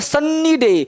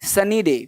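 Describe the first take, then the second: First: The 'n' is held long and doubled. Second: The 'n' is a short single sound. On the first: The speaker calls it wrong. "कहीं बोलते हैं" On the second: The speaker calls it right. "अरे सन्नी बन्नी नहीं है"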